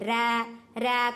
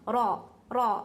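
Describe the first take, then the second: First: The R is light and thin. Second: The R is heavy, filling the mouth. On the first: "ये बारीक" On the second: "मोटा पढ़ रही हूँ आवाज मुंह भर को जा रही है"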